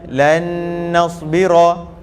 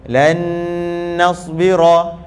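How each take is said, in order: No difference in how they are said.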